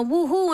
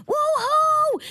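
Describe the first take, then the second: First: A lightly imitated street cheer, rising; mock cheer. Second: High, gleeful whoop back out the window; excited whoop. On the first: Neighbors cheering up at her window, mild mock whoop. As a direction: echo the neighbors' whoop, half-hearted. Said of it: "neighbors are screaming up at my window". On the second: Retold or imitated. Answering the neighbors from her window, high excited whoop. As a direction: shout back like a thrilled fan. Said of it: "and I go".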